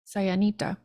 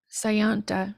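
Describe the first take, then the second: First: The word has an extra vowel in the middle. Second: The word has no extra vowel in the middle. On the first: "I keep wanting to say it without the I" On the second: "Let's say it with the short end without the I"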